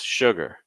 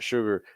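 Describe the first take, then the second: First: The second syllable drops lower in pitch. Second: The second syllable stays level in pitch. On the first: The speaker calls it right. "take that second syllable lower in pitch" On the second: The speaker calls it wrong. "So it's not sugar"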